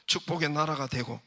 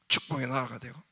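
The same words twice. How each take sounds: The two takes are said the same way.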